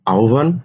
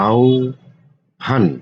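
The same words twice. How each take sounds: First: Said in the usual way. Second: আহ্বান said very slowly, sounds held long; drawn-out spelling. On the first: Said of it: "teacher repeats word slowly". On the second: Shown as a demonstration. Teacher to students, slowly stretching আহ্বান. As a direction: linger on every sound of আহ্বান. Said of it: "teacher stretches word for students".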